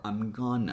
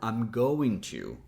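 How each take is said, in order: First: Going to is squeezed into one short word. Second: The first two words are joined into one.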